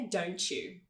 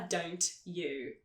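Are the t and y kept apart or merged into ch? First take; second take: merged; apart. First: The t and y merge into a ch sound. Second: The t and y are said as separate sounds. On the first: The speaker calls it right. "é" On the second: The speaker calls it wrong. "A gente não fala"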